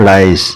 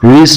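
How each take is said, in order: First: The vowel sounds like 'eye'. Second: The vowel sounds like 'ih'. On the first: The speaker calls it right. "সেকেন্ডত কৈছো ৰাইজ" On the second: The speaker calls it wrong. "ৰিজ টু কোৱা নাম"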